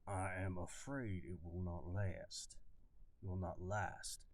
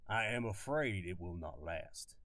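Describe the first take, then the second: First: Reworked slow Southern drawl; slow Southern colonel drawl; slower southern accent. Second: Southern colonel drawling his warning; southern accent. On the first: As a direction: drag the words out like an old Southern officer. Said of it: "Let me figure out how to say it". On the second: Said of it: "This is my southern kinda accent". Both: Acted.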